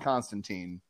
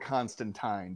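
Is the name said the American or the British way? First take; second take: American; British. First: The name is said the usual American way. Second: The name is said the British way.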